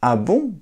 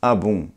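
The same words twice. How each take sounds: First: It sounds surprised and astonished. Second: It sounds calm and merely attentive.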